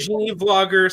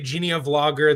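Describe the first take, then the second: First: Genie runs straight into Vlogger with no vowel. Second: An extra vowel sound comes after Genie. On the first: "I pronounce it Genie Vlogger" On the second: "Some people say Genia Vlogger"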